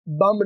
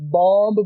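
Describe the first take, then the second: First: The vowel is a short 'u' sound. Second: The vowel is a short rounded 'o' sound. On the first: "बम नहीं होता" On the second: "बॉम्ब भी नहीं होता"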